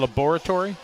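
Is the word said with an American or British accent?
British. It is said with a British accent.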